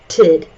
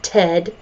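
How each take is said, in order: First: The vowel is a short 'i' sound. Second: The vowel is a short 'e' sound. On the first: The speaker calls it right. "It sounds like tid" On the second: The speaker calls it wrong. "not ted"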